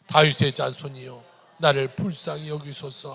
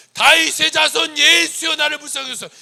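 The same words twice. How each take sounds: First: Loud steady recitation; reading scripture aloud. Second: Desperate cry. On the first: Real, not acted. Preacher reading Mark aloud with the congregation, recitation. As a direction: read the verse out together. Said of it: "같이 한번 읽을까요". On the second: Acted. Blind man outshouting the crowd to Jesus, desperate cry. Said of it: "그는 뭐라고 하냐".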